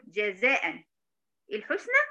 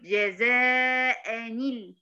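First: جزاء ends in a still "an", pause before الحسنى; unjoined tanween. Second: جزاء نيل drawn out as "jazā'a-nil"; tanween with kasra. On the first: Teacher asks did I say this, words kept apart. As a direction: say جزاء as "jazā'an", then الحسنى separately. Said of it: "هل أنا قلت". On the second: Teacher asks or did I say this, slow linked form. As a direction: stretch جزاء, then link with a clear نيل. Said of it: "ولا قلت". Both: Shown as a demonstration.

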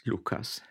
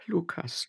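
First: Fading sigh. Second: Soft, high sighed name; sighing. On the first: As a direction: let the name die away in a sigh. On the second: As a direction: sigh his name while weeping. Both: Acted. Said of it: "seufzte sie".

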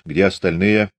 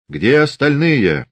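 First: Said in the usual way. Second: «Где» hit high and loud, slow; «Где остальные» pressed slowly and firmly, stress on «Где»; repeated demand. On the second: Acted. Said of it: "вторично спросил Фомин".

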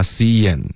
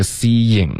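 First: "seeing" as see-yen, ending in n; reduced ing. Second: "seeing" as see-ying with the ng kept; full ing ending. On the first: Teacher shows the allowed reduced form, n ending. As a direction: turn the ng of "seeing" into a plain n. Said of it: "in变成in". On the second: Teacher shows the full form first, ng ending. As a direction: finish "seeing" on a full ng after the y glide. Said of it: "所以刚刚这个seeing". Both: Shown as a demonstration.

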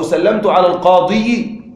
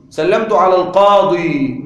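First: القاضي with the unwanted -i sounded, al-qāḍiyi; pronounced kasra. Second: القاضي ending on a long ī without kasra; no final vowel mark. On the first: Teacher warning what not to say, القاضي as al-qāḍiyi. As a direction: tack a clear "yi" onto القاضي. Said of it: "لا تقل". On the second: Teacher giving the easy form, القاضي ending simply in long ī. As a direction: close القاضي on one smooth "ḍī". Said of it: "بدون حركات في النطق". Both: Shown as a demonstration.

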